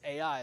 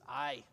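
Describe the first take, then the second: First: The name does not sound like 'aye'. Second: The name sounds like the Scots word 'aye'. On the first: This is how it is usually said in English. "the name of this city is Ai, is how we pronounce it" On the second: This is how the original language says it. "if you go back and look at the Hebrew, it's Ai, which is the Scots are very fond of"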